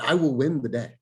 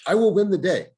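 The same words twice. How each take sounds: First: Said in the usual way. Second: Louder and higher, a rallying declaration; emphatic repeat. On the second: Real, not acted. Coach firing up his agents, rallying declaration. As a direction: hammer the line home the second time.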